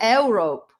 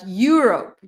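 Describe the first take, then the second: First: The word does not begin with 'you'. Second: The word begins with a 'you' sound. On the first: The speaker calls it wrong. "not Europe" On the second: The speaker calls it right. "but Europe, you, you, you"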